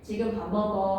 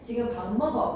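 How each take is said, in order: First: The pitch falls at the end. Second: The pitch stays level at the end. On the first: It is a statement giving information. "하고 끝을 내리면 평서문" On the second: It is a command. "라고 평탄하게 발음을 하면 명령문"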